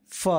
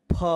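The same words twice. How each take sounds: First: "फ" as "fa", air past the teeth; nukta f sound. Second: "फ" as "pha", lips popping open; aspirated ph. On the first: Teacher repeating the second letter, "फ" as fa. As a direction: say "फ" as a true f. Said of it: "अगला". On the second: Teacher repeating the first letter, "फ" as pha. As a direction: say "फ" as p plus breath. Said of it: "इन दोनों का एक साथ उच्चारण". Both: Shown as a demonstration.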